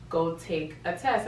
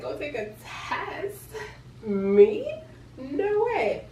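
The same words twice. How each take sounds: First: Said in the usual way. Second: High-pitched, drawn-out disbelief; squeaky astonished protest; incredulous echo. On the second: Retold or imitated. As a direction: repeat it back in mock shock, voice shooting up. Incredulous echo of boyfriend's instruction.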